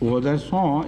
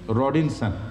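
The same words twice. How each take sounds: First: The name is pronounced with French sounds. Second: The name is pronounced with English sounds. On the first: "is the French pronunciation" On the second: "The English pronunciation would be"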